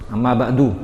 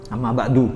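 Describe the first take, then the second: No difference in how they are said.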